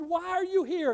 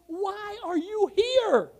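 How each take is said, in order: First: Said in the usual way. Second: High, slow, drawn-out demand; raised, incredulous questioning; astonished question. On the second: Retold or imitated. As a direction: imitate an amazed onlooker, each word stretched. Retold amazed questioning of revival-goers.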